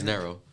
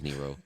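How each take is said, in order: First: The name is said like 'narrow'. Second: The name is said like 'Nero'. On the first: This is how the name is really said. The speaker calls it right. "It's narrow" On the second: This is how other people say the name. The speaker calls it wrong. "everybody says Nero. I hate y'all for that"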